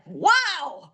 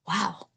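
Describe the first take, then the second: First: It is said loudly. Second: It is said quietly.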